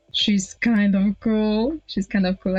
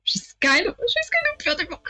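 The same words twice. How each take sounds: First: Said in the usual way. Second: High-pitched, hurried flutter on "kind of beautiful"; flustered, squeaky admiration; smitten gushing. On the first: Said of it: "I catch myself thinking". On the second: Acted. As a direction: blurt out a crush in a high voice. Flustered admiration, corrected after.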